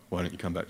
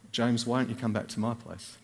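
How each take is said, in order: First: Suggestive invitation. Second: Said in the usual way. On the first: Shown as a demonstration. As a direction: play it as a mock seductive offer. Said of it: "It wasn't that kind of offer".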